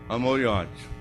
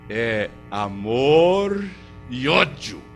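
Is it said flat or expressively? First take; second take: flat; expressively. First: Both words are said in the same flat tone. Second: Each word carries its own emotional tone.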